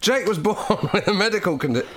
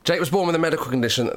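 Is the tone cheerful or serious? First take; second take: cheerful; serious. First: It is said in a light, cheerful tone. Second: It is said in a serious, sombre tone. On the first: The speaker calls it wrong. "Did you go into a serious point off banter?" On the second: The speaker calls it right. "Do the tone shift now, live"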